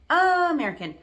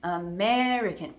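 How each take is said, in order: First: The stress is on a different syllable. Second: The stress is on the second syllable. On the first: The speaker calls it wrong. "people might have a hard time understanding you" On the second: The speaker calls it right. "the second one is the louder, longer, more stressed syllable"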